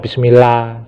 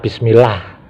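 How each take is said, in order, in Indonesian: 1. Kata itu diakhiri tanpa bunyi h sama sekali. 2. Kata itu diakhiri dengan bunyi h yang terdengar jelas. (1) "Nggak boleh ya, harus ditambah dengan H" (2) "itu baru benar. Di sini ditambahi H"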